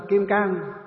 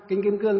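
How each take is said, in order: First: "Cang" said with a plain open "ang" vowel; northern old reading. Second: "Cương" said with the "ương" glide, not "ang"; correct reading. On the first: Monk to the assembly, giving the old northern name "Kim Cang". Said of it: "Mình miền Bắc ngày xưa gọi là kinh Kim Cang". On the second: Monk to the assembly, correcting to the proper "Kim Cương". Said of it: "đúng là gọi là kinh Kim Cương". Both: Shown as a demonstration.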